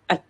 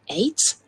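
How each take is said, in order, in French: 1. La syllabe a une voyelle courte et réduite. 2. La syllabe a une voyelle pleine, comme dans eight. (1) "mais at" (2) "On ne prononcera pas donc A T E, eight"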